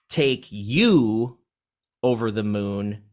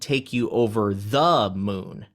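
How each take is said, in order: First: The word you carries the stress. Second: The word the carries the stress. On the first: It is you being taken, not someone else. "that means we are taking you instead of someone else" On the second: It is that particular moon, not any moon. "not any moon, the moon"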